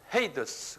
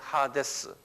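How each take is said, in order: First: The name begins with a 'hey' sound. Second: The name begins with an 'ha' sound. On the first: This is how English speakers say it. "이걸 영어로는 헤이더스 그래요" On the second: This is how the original Greek word is said. "하데스라고 그런다"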